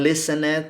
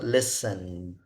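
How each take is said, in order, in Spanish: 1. El final se dice como una sílaba extra. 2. El final es un sonido D simple. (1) "no digan listened porque no se pronuncia" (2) "eso sería pronunciado listened, con una D"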